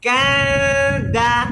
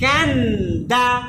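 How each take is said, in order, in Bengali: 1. n লুকানো, জিভ পুরোপুরি স্পর্শ করে না। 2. জিভ মাড়ি স্পর্শ করে, তাই n স্পষ্ট হয়। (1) "এই তানবিনটা আপনার দালের কাছে চলে যাবে এবং লুকানো হয়ে যাবে।" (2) "আমরা তানবিনকে লুকাবো না কিন্তু দালকে উচ্চারণ করব।"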